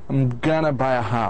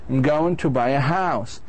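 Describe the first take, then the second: First: 'Going to' is reduced to 'gonna'. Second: 'Going to' is said fully, as two words.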